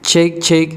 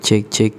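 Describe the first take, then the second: First: The voice has fewer low-frequency breath pops. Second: The voice has more low-frequency breath pops.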